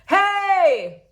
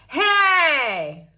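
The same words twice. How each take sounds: First: The voice is full and open, not nasal. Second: The voice is bright, pinched and nasal. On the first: "This is a straight belt" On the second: "this is a twanged kind of belt"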